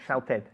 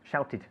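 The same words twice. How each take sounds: First: The ending is pronounced like 'ed'. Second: The ending is pronounced like 'id'. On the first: The speaker calls it wrong. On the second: The speaker calls it right.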